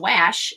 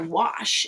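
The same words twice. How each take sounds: First: The vowel is a flat short a sound. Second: The vowel is a relaxed uh sound. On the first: The speaker calls it wrong. "It's not going to be the normal wash. It's not a wash" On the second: The speaker calls it right. "that A is going to be the schwa sound"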